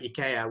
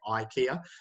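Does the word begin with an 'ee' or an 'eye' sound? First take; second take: ee; eye. First: The word begins with a plain 'ee' vowel. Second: The word begins with a gliding 'eye' vowel. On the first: This is how most European languages say it. "Instead of saying" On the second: This is how English speakers say it. "we say IKEA. ... We put a, a double vowel there"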